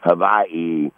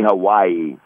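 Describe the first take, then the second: First: The middle consonant is a V sound. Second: The middle consonant is a W sound. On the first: This is how locals say it. The speaker calls it right. "the W is a V, like a Victor" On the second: This is how outsiders say it. The speaker calls it wrong. "They don't say Hawaii"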